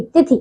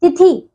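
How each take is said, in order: First: तिथि with a short final "i"; correct pronunciation. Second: तिथि with a long, raised final "ee"; mispronunciation. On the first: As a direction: keep the end of तिथि short. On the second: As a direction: stretch the end of तिथि: tithee. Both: Shown as a demonstration. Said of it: "नहीं, तिथि".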